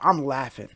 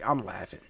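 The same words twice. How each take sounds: First: Louder, almost shouting it, cracking up; loud laughing admission. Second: Said in the usual way. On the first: Real, not acted. Streamer reacting to [name]'s outfit, loud and amused. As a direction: give it a loud burst of amusement.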